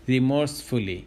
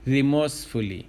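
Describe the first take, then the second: No difference in how they are said.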